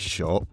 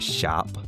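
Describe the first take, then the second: First: The vowel is a rounded 'aw' sound. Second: The vowel is an open 'ah' sound. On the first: "you'd normally say shop" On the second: "in Belfast that can shift to shap"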